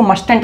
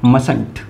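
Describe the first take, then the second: First: Mustn't with the first t sounded, like "must-ent"; mustn't with a clear t before the n; wrong pronunciation. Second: Mustn't said "mus-unt", the first t silent; Mustn't with no t before the n; correct pronunciation. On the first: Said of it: "इसको mustn't नहीं पढ़ेंगे". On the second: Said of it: "क्या पढ़ेंगे?". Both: Shown as a demonstration.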